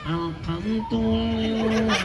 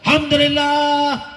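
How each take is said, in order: First: It is said weakly with a feeble voice. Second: It is said loudly with a strong voice.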